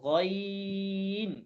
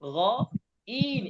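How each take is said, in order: First: The word is said smoothly without any break. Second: The word is split with a break after the first sound. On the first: The speaker calls it right. "একসাথে গই, গইন" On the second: The speaker calls it wrong. "গ ইন এরকম আলাদা করা যাবে না"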